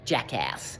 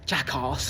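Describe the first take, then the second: First: It is said in an American accent. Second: It is said in a British accent. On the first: The speaker calls it right. "Sounds so much better in an American accent" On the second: The speaker calls it wrong. "That sounds terrible"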